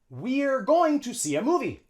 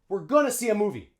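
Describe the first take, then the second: First: The sentence starts with a long E vowel. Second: The sentence starts with a schwa, reduced and linked. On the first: The speaker calls it wrong. "Native English speakers wouldn't say we're" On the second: The speaker calls it right. "They would say we're gonna see a movie"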